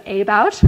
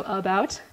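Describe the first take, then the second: First: "about" as AY-bout, full A first; unreduced first vowel. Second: "about" as uh-BOUT, schwa first; reduced first vowel. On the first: Linguist contrasts with the schwa version, AY-bout for "about". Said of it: "instead of about". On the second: Linguist shows unstressed vowel reducing, uh-BOUT for "about". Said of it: "about part is stressed". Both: Shown as a demonstration.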